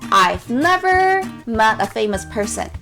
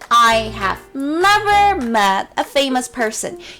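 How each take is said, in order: First: 'I have' is shortened to one syllable 'I've'. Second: 'I have' is said as two full words.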